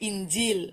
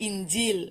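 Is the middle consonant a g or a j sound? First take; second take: j; j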